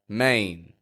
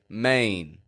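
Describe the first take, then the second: Both takes have the same delivery.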